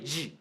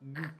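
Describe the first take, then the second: First: It is said like the English letter name. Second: It is said with a hard g sound. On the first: This is the English way. The speaker calls it wrong. "In English, you say G" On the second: This is the Kiswahili way. The speaker calls it right. "but in Kiswahili, it's not G, is G"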